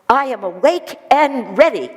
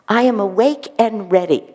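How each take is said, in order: First: It is said in a loud, energetic voice. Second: It is said in a plain, calm voice. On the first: "Master says" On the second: "Master doesn't just say it like that"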